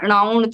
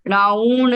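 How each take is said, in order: First: The u vowel is said short. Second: The u vowel is held long. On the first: The speaker calls it wrong. "ऊ में छोटी की मात्रा उच्चारित हुई" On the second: The speaker calls it right. "णाउण नहीं होके"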